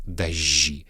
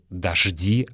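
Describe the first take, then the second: First: It uses the old Moscow pronunciation. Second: It uses the ordinary modern pronunciation. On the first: The speaker calls it right. "а дожди. Это старомосковское произношение" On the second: The speaker calls it wrong. "Не дожди"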